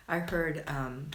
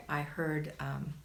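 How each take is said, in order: Both takes have the same delivery.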